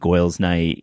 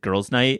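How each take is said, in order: First: Girls is said with an oy-like vowel. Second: Girls is said with a standard er vowel.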